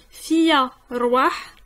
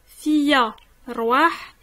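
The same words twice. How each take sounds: The two takes are said the same way.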